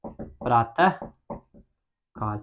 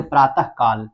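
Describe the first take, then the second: First: प्रातः said very slowly and softer, with a breathy half ह after the vowel; drawn-out visarga. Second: Said in the usual way. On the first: Shown as a demonstration. Teacher to class, spelling out the visarga sound in प्रातः, very slow and soft. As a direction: stretch प्रातः so the final ह breath is heard. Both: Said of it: "उच्चारण जब करते हैं तो इसमें ह की मात्रा आता है".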